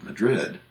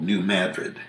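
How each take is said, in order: First: "Madrid" stressed on the second syllable; "Madrid" with weak first syllable, strong "DRID"; Spanish capital's pronunciation. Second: "Madrid" stressed on the first syllable; Americanized "Madrid", opening like "mad"; Missouri town pronunciation. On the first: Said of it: "but it's called New Madrid". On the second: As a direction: say "New Madrid" as "new MAD-rid". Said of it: "but it's called". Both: Shown as a demonstration.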